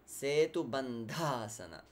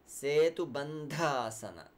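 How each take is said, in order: The two takes are said the same way.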